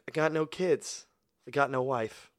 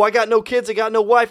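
First: It is said in a gloomy, deflated tone. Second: It is said in a boastful, upbeat tone. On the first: Having no family means no one else to blame. "I have no one to blame for my failures" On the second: Having no family means total freedom. "yo, I got no kids. I got no wife. I can do anything I want. Nobody can stop me"

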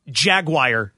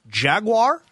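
First: The ending sounds like the word wire. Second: The ending is said in the American way. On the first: The speaker calls it wrong. "Jaguar doesn't exist. That's not a pronunciation" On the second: The speaker calls it right. "It's Jaguar"

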